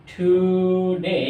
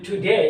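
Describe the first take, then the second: First: today drawn out very slowly, syllable by syllable; slow demo word. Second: Said in the usual way. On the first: Shown as a demonstration. Teacher to students, showing the syllables of today, very slow. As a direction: stretch today so each syllable is heard. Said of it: "এরপরে যদি today".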